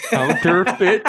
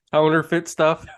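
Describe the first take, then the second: First: "Counterfeit" said again through laughter, high and loud; laughing repeat. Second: Laughing, blur "Counterfeit" into haunerfit; counterfeit mispronounced. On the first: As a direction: repeat "Counterfeit" while cracking up. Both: Real, not acted. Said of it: "Say it again".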